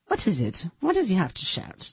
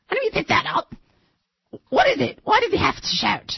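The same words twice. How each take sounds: First: Said in the usual way. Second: High hammed-up British accent; Queen's English impression. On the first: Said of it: "That's a different". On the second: Host retrying the Queen in a British accent. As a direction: squeak it out like a Python queen. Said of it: "it's the Queen's English".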